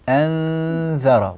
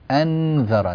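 First: The n is hidden, blending into the following consonant. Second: The n is pronounced fully with clear tongue contact. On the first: The speaker calls it right. "والنون هنا خفية مستورة غير ظاهرة" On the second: The speaker calls it wrong. "أسمع النون كأنها مظهرة"

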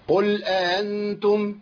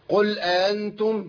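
First: The second glottal stop is softened and eased. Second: The same.

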